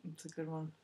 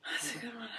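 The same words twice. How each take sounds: First: Hushed, low murmur under her breath; quiet aside. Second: Breathy whispered echo. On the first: Host murmuring her agreement to the guest, quietly. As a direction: say it half to herself, barely audible. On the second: Host whispering her agreement back to herself. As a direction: whisper it to yourself after the first take. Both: Real, not acted.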